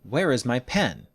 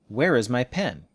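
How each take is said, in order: Both takes have the same delivery.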